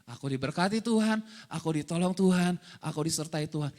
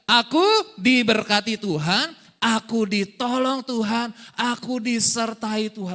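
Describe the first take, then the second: First: Understated, low-pitched recitation sinking lower at the end; murmured declaration. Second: Loud, slow, emphatic proclamation; group declaration. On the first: Preacher showing hagah, to murmur, understated low declaration. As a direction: recite it evenly as if to yourself. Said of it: "Itu hagah, to murmur". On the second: Preacher leading congregation to say it together, loud slow declaration. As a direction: lead a crowd through it slowly at full voice. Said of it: "Sama-sama katakan dua, tiga". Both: Shown as a demonstration.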